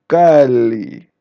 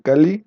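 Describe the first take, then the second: First: The first vowel is long. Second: The first vowel is short.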